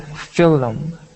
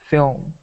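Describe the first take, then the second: First: An extra vowel is inserted between L and M. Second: L and M are joined without any vowel. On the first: The speaker calls it wrong. "don't say film" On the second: The speaker calls it right. "do say film"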